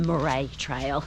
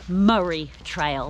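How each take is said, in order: First: The name is said like Mor-ay. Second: The name is said like Murray. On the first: The speaker calls it wrong. "not the Moray Trail" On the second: The speaker calls it right. "It's the Murray Trail"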